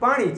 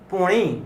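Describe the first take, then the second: First: The first vowel is an 'a' sound. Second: The first vowel is an 'o' sound. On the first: This is the standard form. "તો પોણી છે એ શું થયું? પાણી છે" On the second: This is the North Gujarat dialect form. "ઉત્તર ગુજરાતની પોણી, પાણીની જગ્યાએ શું બોલે?"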